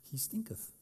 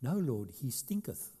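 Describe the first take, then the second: First: Put-on softer, laughing over the old word stinketh; amused repeat. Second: King James quote. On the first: Shown as a demonstration. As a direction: chuckle as you say stinketh again. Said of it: "that's what it says". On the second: Retold or imitated. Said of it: "the King James says".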